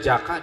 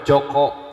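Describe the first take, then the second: First: The vowels are said as a sounds. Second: The vowels are said as o sounds. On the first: This is the Sundanese way. "di Sunda" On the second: This is the Javanese way. "di Jawa"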